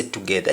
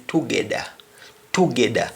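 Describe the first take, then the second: First: Said in the usual way. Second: "together" with a D for the TH; Patois "together", hard D in the middle; Jamaican pronunciation. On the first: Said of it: "How do you say together?". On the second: Shown as a demonstration. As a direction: say "together" as "togedda". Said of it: "You simply say".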